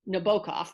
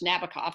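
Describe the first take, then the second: First: The name is said the way its owner preferred. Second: The name is said the usual English way. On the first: This is how the man himself wanted it said. "I think his preferred pronunciation was Nabokov" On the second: This is how English speakers say it. "We call him in English Nabokov"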